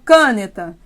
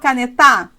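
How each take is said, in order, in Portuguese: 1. A tonicidade está na primeira sílaba. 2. A tonicidade está na última sílaba. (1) "Eu falo caneta? Não" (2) "Você força as três sílabas possíveis. Eu falo canetar? Não"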